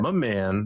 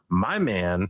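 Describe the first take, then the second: First: The first word is reduced to 'ma'. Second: The first word is a full 'my'. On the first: It sounds like a casual friendly address. The speaker calls it right. "you have to say ma. If you say my man, now it sounds fine" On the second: It sounds like talking about a boyfriend. The speaker calls it wrong. "it definitely sounds like you're talking about your boyfriend"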